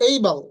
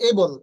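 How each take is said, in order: First: "এইবল" opening with an e-i glide; correct pronunciation. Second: "এবল" with a pure e and bol ending; no glide in "এবল"; common mispronunciation. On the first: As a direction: stress ey in "এইবল", ending bal. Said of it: "এটার উচ্চারণ হবে". ("এইবল" শুরুতে এই টেনে) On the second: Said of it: "আমরা এটাকে বলি". ("এবল" এ-বল, ই ছাড়া) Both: Shown as a demonstration.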